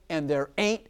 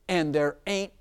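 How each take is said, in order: Both takes have the same delivery.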